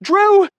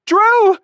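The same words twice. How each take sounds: First: High, loud panicked yell of his name; frightened woman shouting Drew; yelling for help. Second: High, loud second panicked call; frightened woman shouting Drew; yelling again. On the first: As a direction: scream his name from the shower. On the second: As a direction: keep screaming his name, just as urgent. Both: A narrator's reading. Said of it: "she starts yelling".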